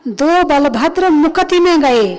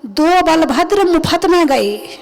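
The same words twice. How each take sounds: First: Slow, careful recitation with मुकति said clearly as mu-ka-ti; correct pronunciation. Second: Slow recitation with मुफत said as mufat instead of मुकति; mispronunciation mocked. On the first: Monk shows the congregation the correct reading of मुकति, slow and careful. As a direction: carefully sound out मुकति, the right way. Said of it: "निर्वाण कांड में आता है". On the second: Monk mimics a careless reader saying मुफत, slow and mocking. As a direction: mockingly read मुफत, like free of charge. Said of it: "इसका तो मामला ही गड़बड़ कर दिया". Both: Shown as a demonstration.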